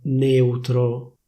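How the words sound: The E vowel is closed. This is how it is said in Milan. "A Milano queste parole vengono pronunciate con una E chiusa"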